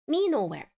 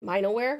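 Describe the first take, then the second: First: Minoware said as MEE-no-ware, falling end; corrected pronunciation. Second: Minoware said as MY-no-ware, questioning rise; mistaken pronunciation. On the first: Streamer correcting herself after chat's help, Minoware as MEE-no-ware. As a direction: say Minoware with "me" as the first syllable. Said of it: "Sorry, Mino. Not, uh, whatever". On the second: Streamer repeating her mistake to chat, Minoware as MY-no-ware. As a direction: say Minoware with "my" as the first syllable. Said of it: "I was saying". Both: Shown as a demonstration.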